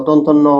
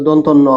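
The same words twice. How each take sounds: The two takes are said the same way.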